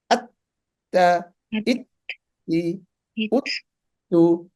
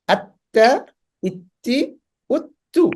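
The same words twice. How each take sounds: First: আত্তা, ইত্তি, উত্তু slowly, with a silent hold on each double t; drawn-out আত্তা, ইত্তি, উত্তু split by a pause; sound stops mid-word. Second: Said in the usual way. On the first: Shown as a demonstration. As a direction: halt completely inside আত্তা, ইত্তি, উত্তু before releasing. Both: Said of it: "The sound will be stop".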